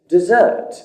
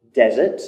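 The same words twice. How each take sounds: First: "desert" stressed on the second syllable. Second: "Desert" stressed on the first syllable. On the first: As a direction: say desert as the verb, de-ZERT. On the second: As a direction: say Desert as the dry place, DEZ-ert. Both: Shown as a demonstration. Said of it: "You hear the difference then?".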